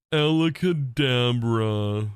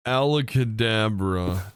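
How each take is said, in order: First: Very slow, stretched magic word; slow magician voice. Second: Slow drawn-out magic word; Ford voice. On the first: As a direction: intone it like a showman. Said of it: "You can sound". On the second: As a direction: announce it like a stage magician. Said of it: "Ford voice". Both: Shown as a demonstration.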